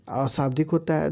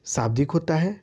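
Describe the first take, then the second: First: अशाब्दिक with a clear अ at the start; negative prefix spoken clearly. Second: Said in the usual way. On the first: Shown as a demonstration. Teacher to students, reading the option अशाब्दिक. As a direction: say अशाब्दिक, not शाब्दिक. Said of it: "अ लगा दीजिएगा यहाँ". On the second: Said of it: "शाब्दिक होता है, अशाब्दिक होता है".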